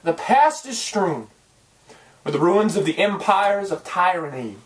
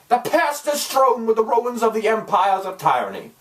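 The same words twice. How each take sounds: First: It is said in his natural voice. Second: It is said in a put-on accent.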